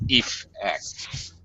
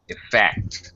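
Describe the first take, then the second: First: The stress is on the first syllable. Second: The stress is on the second syllable. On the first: The word is used as a noun. "as a noun, ... first syllable stress in the noun" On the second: The word is used as a verb. "As a verb, ... second syllable stress in the verb"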